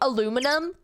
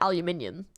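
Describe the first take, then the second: First: It is said the American way, four syllables. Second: It is said the British way, five syllables. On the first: "they say aluminum" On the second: "we say aluminium"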